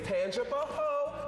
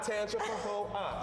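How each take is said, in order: First: The name ends on the syllable 'ho'. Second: The name has an extra syllable after 'ho'. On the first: The speaker calls it right. "it's Tanja for ho" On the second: The speaker calls it wrong. "not Tanja for ho up"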